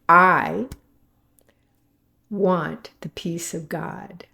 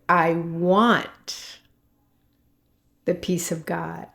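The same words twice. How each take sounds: First: The stress is on "I". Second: The stress is on "want".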